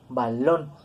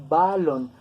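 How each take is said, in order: First: "balón" stressed on the final syllable, ba-LÓN; stress on last syllable. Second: "balón" stressed on the first syllable, BA-lon; wrong stress on first syllable. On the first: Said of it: "con acento en la última sílaba". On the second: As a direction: lean hard on the "ba" of "balón". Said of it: "nosotros no pronunciamos balón". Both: Shown as a demonstration.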